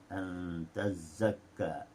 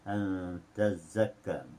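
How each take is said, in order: The two takes are said the same way.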